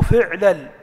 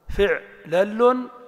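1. تنتهي الكلمة بحرف ساكن دون تنوين. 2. تنتهي الكلمة بصوت التنوين -un. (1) "ومرة بسكون" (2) "مرة بإعراب"

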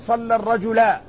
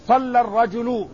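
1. تنتهي الكلمة الأخيرة بحركة a. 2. تنتهي الكلمة الأخيرة بحركة u. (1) "لا تقل صلى الرجلا" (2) "الفاعل مرفوع"

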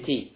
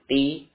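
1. Bunyi t dilepas dengan napas yang terdengar. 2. Bunyi t dilepas tanpa napas yang terdengar. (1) "Ta harus dengan hamas. ... tapi ti" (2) "Bukan ti"

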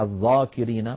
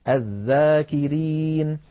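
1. يُنطق الحرف الأول الصامت ثقيلاً وغليظاً. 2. يُنطق الحرف الأول الصامت خفيفاً ورقيقاً. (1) "فلا استعلاء ولا تفخيم في الذال. ذا ولا نقول الذا" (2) "بل نقول الذا الذاكرين"

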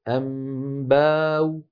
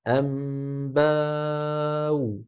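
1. يُمدّ حرف المد قليلًا فقط. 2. يُمدّ حرف المد بمقدار متوسط. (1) "بالقصر" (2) "بالتوسط"

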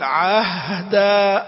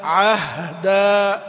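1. صوت الهاء ممدود بشكل أطول من المعتاد. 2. صوت الهاء ممدود بشكل أطول من المعتاد.

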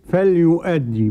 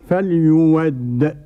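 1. تُنطق الهمزة بوضوح قبل الحركة. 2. تُبدل الهمزة بصوت الواو. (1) "بالهمزة كده" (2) "يبدلوا الهمزة واوا"

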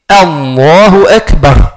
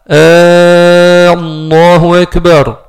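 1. La première voyelle de Allahu reste courte. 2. La première voyelle de Allahu est prolongée, longue. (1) "on dit Allahu Akbar" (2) "on prolonge le dans l'offre al-Jalala"

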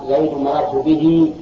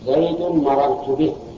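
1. تنتهي الكلمة الأخيرة بزيادة حركة. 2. تنتهي الكلمة الأخيرة دون زيادة حركة. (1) "تجيب الصلة" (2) "تحذف صلته"

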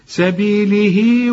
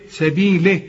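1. الحركة الأخيرة تُمدّ مدًّا طويلًا. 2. الكلمة تنتهي بدون حرف مدّ طويل. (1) "عشان تمدها حركتين" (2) "اذا وقفت ... بدون مد"

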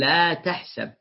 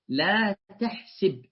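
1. الحركة بعد صوت s هي a. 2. الحركة بعد صوت s هي i. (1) "ومتعود أن يقول لا تحسب" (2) "هكذا قالها"

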